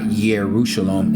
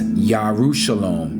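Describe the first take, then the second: First: The first syllable is said as 'yeh'. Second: The first syllable is said as 'yah'. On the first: The speaker calls it wrong. "not Yerushalom" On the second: The speaker calls it right. "we pronounce Jerusalem as Yarushalom"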